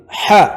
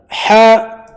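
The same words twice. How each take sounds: First: Said in the usual way. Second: "حاء" as a long haa, pitched higher; long vowel. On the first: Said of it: "حاء أبفلي". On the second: Shown as a demonstration. Teacher spelling for students, long "حاء". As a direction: hold the aa of "حاء". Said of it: "مد ألف".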